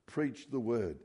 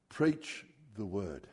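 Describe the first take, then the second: First: Said in the usual way. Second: Slow, each word weighed, falling on preach; slow emphatic command. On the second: Shown as a demonstration. Preacher to congregation, reading Paul's charge slowly and weightily. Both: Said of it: "That's the first order of business".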